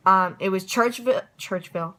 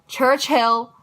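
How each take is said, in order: First: Churchville said instead of Churchill; mispronounced. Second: Churchill said right, louder and higher; corrected name. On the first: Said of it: "corrected to Churchill". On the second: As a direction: fix it to Churchill. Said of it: "corrected name". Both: Real, not acted.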